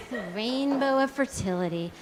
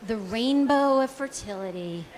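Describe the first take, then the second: No difference in how they are said.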